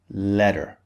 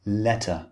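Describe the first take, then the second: First: "letter" as American "ledder"; "letter" with a d in place of t; American flapped T. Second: "Letter" with a clearly sounded t; British "Letter", t crisp between the vowels. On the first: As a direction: soften the middle of "letter" to a d. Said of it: "In American English". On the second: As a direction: keep a true t in "Letter". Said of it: "the T is clearly pronounced". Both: Shown as a demonstration.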